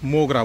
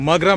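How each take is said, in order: First: The first vowel is a rounded 'o' sound. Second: The first vowel is an open 'a' sound. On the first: This is the Bengali way of saying it. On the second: This is the Hindi way of saying it.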